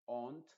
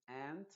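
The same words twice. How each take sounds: First: Aunt with a broad open "ah" vowel; British aunt. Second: Aunt with the A of cat, silent U; American aunt. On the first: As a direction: say aunt as in England, like "ahnt". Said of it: "en Inglaterra le dicen aunt". (aunt a la inglesa, con A abierta) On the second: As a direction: say aunt like "ant", American style. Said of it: "se va a pronunciar como una A modificada". ("ant" a la americana, con A modificada) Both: Shown as a demonstration.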